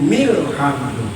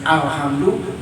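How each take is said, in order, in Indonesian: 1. Kata ini tersambung dengan bunyi 'mil'. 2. Kata ini dimulai dengan bunyi 'al' tersendiri. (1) "jadi milhamdu"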